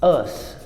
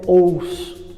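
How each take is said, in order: First: It is a short reduced 'us' sound. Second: It is a full 'oh-us' vowel sequence. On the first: The speaker calls it right. "E esse padrão é us" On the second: The speaker calls it wrong. "que é tão pronunciado erroneamente"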